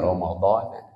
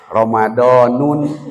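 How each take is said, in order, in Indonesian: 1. Kata "Ramadan" berakhir tanpa tambahan -un atau -in. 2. Kata "Ramadan" berakhir dengan bunyi -un yang ditambahkan. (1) "para ulama menulisnya Ramadan" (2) "mada mual di aos Ramadanun"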